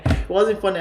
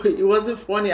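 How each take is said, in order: First: Said in the usual way. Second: Laughing while saying it; can't hold back a laugh. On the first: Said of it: "but man". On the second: Real, not acted. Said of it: "I'm laughing now".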